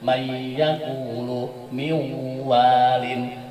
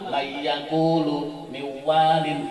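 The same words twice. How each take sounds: First: The merged sound is held long with nasal hum. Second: The merged sound is short with no nasal hum. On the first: The speaker calls it right. "harus terasa di pangkal hidung" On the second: The speaker calls it wrong. "Tidak boleh cuma mayyakulu miwalin, itu kurang tepat"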